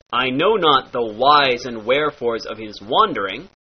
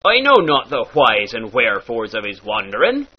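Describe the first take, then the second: First: Said in the usual way. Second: "whys" and "wherefores" breathed as hw; pirate hw. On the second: Shown as a demonstration. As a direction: push air through each "wh". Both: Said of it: "turns into".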